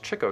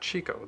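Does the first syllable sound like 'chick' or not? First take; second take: chick; not chick. First: The first syllable sounds like 'chick'. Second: The first syllable does not sound like 'chick'. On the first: The speaker calls it right. "it was pronounced Chico" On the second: The speaker calls it wrong. "not Chico"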